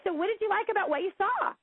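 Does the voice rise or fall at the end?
rise. The voice rises at the end.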